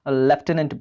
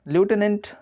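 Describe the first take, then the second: First: It is said lef-tenant, with an f sound. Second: It is said lyoo-tenant, with no f sound. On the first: "कई लोग इसे लेफ्टिनेंट बोलते हैं" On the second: "ल्यूटेनेंट इसे लिखा जाता है"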